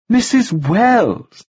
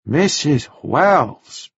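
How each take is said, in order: First: Very slow, high, over-clear name; emphatic correction. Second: Very slow, lightly voiced foreign man; careful repeat. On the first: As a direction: drill the name into him. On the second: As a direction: repeat the name slowly, learning it. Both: A narrator's reading. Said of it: "he repeated".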